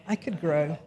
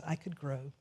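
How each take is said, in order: First: Said in the usual way. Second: "I could grow" much softer, murmured; soft inner thought. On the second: Shown as a demonstration. Preacher voicing the listener's private thought, soft murmur. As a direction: murmur it to yourself. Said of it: "you recognize".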